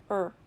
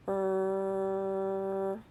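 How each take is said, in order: First: "Er" as one short burst; fast sound. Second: "Er" as one long held r sound; slow sound. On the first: Teacher answers "say it fast", "Er" said very short. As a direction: cut "Er" short and quick. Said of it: "Say it fast". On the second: Teacher models a sound for children, "Er" held long. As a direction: hold "Er" steadily on a level tone. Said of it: "say a sound slowly". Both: Shown as a demonstration.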